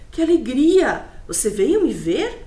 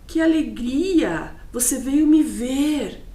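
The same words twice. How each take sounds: First: It is asked as a question, ending rising. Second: It is exclaimed, ending with a fall.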